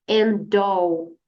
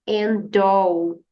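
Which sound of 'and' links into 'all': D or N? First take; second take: D; D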